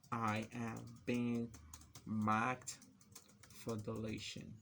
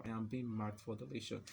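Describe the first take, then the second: First: Slow phrases split by pauses; typing-pace dictation. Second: Said in the usual way. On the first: Real, not acted. Typing marked example text, slow halting dictation. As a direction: dictate it slowly as you type.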